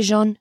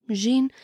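First: "Jean" said the French way, zhahn, with a nasal ah; settled pronunciation. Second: "Jean" said as zheen, with an ee vowel; alternative pronunciation. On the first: Host settling on how to say "Jean", nasal French zhahn. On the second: Host trying a second way to say "Jean", zheen. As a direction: try "Jean" with a thin ee sound, zheen. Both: Shown as a demonstration. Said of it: "I'm gonna say Jean".

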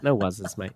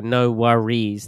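First: "No wuzzes", with "worries" cut to WUZ-iz; shortened slang form. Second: Said in the usual way. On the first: Shown as a demonstration. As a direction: say "wuzzes" for "worries", lower, amused. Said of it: "if it gets shortened". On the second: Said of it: "They just stop at "wor".

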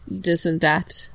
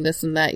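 First: "this" said as "dis", slow and deliberate. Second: Said in the usual way. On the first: Shown as a demonstration. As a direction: say "this" with a hard d, no th. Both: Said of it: "you say".

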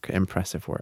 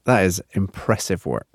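First: Softly repeating under the breath; muttered repeat, much softer; quiet echo. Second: Said in the usual way. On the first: Shown as a demonstration.

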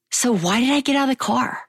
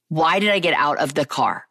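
First: High, baffled self-questioning; exasperated question. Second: Regretful self-questioning at normal pitch. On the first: Woman looking back on her wedding day, exasperated. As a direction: ask it high, in disbelief at yourself. Asking herself in exasperated regret. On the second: Woman looking back on her wedding day, regretful. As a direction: ask it again soberly, word by word. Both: Real, not acted.

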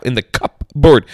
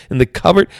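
First: In the cupboard said with a clear P, cup-board; spelled-out cupboard. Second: Said in the usual way. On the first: Shown as a demonstration. Explaining how it's spelled, cupboard said letter by letter. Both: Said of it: "How do you say it?".

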